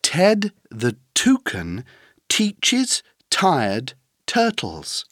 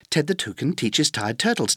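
First: The sentence is said at a moderate pace. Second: The sentence is said at a very fast pace.

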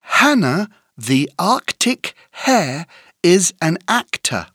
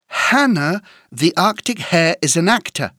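First: The sentence is said at a moderate pace. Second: The sentence is said at a fast pace.

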